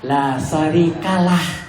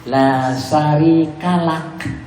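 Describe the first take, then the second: First: The phrase ends with a soft h sound. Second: The phrase ends with a clipped k sound. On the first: "sering kita diajarkan pakai h" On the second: "pakai k"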